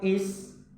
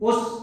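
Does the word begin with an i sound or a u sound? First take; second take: i sound; u sound. First: The word begins with an i vowel. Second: The word begins with a u vowel. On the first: The speaker calls it right. "mesti di bawah" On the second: The speaker calls it wrong. "Wah, itu salah"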